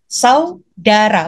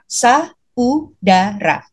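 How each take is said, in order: First: The vowels a and u run together. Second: The vowels a and u are split apart. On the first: The speaker calls it right. "Saudara bukan" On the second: The speaker calls it wrong. "bukan saudara gitu ya"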